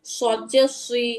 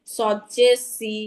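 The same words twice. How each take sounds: First: সুই thick, with rounded lips; slow সদ জে সুই with a heavy emphatic S. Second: সি as a light plain "see"; slow সদ জে সি with a thin S; unrounded, thin S. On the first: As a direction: round the mouth fully on সুই. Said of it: "মুখটা গোল করে বলি". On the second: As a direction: lips spread, not rounded, on সি. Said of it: "সিনের উচ্চারণটা চলে আসছে". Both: Shown as a demonstration.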